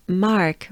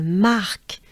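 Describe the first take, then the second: First: Said in the usual way. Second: French accent. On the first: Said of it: "we could think of the name". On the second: Shown as a demonstration. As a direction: Mark with a French breathed R. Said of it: "with a French accent".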